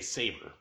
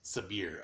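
First: It sounds like the English word saber. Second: It does not sound like the word saber. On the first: The speaker calls it wrong. "my head wants to say Saber" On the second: The speaker calls it right. "But it's Sabïre, according to the main dude"

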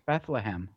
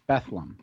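First: Every syllable is pronounced clearly and fully. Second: Part of the word is swallowed and reduced. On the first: This is how it's written. "She's like, it's Bethlehem" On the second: This is how people actually say it. "You swallow it"

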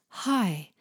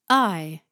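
First: The vowel starts with an audible breathy h. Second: The vowel starts with a sharp glottal catch. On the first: "I don't hear the H sound" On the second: "to have a glottal on"

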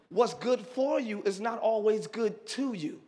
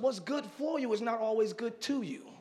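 First: The sentence is said at a slower pace. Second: The sentence is said at a quicker pace.

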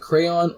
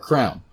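First: The word is said with two syllables. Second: The word is said with one syllable. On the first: The speaker calls it right. "Do you pronounce it crayon" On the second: The speaker calls it wrong. "the abomination of people saying it like crown"

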